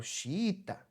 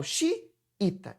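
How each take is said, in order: First: "xiita" in one piece, the I's run into each other; all joined together. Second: "xiita" cut into xi and ita, a break between the I's; wrong split pronunciation. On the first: Teacher showing the right way, "xiita" said all together. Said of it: "tudo junto". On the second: Teacher showing what she doesn't say, "xiita" in two pieces. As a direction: stop after xi, then say ita. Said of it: "não falo xiita". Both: Shown as a demonstration.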